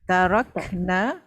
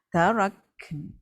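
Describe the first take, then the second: First: The word ends with a full 'na' syllable. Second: The word ends with a short, bare n. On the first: The speaker calls it wrong. "dia tak bunyi na" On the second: The speaker calls it right. "dia bunyi ken dia"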